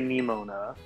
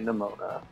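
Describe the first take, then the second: First: The first syllable sounds like 'knee'. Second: The first syllable sounds like 'nuh'. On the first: The speaker calls it wrong. "you don't say Nemona" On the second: The speaker calls it right. "you say Nemona"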